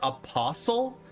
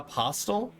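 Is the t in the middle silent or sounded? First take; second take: silent; sounded. First: The middle t is silent, like whistle. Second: The middle t is clearly sounded. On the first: The speaker calls it right. "it's supposed to be pronounced apostle? ... Like whistle or listen?" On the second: The speaker calls it wrong. "Not apostle?"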